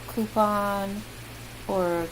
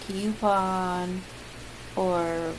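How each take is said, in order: Both takes have the same delivery.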